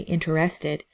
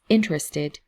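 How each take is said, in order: First: The stress falls on a later syllable. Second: The stress falls on the first syllable. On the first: The speaker calls it wrong. "sometimes I hear people say interested" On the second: The speaker calls it right. "but it's interested. ... the emphasis is on the first syllable"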